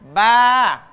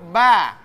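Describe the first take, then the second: First: The vowel is long. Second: The vowel is short. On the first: "Ketika bersamaan dengan alif" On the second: "Ini dibaca pendek"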